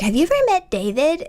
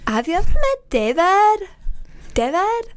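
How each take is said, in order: First: It is said in a plain, normal voice. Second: It is said in a Schitt's Creek imitation voice.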